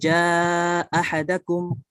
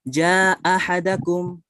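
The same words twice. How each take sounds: First: The long vowel is held for a medium length. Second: The long vowel is held only briefly. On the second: "kita baca qasr dulu"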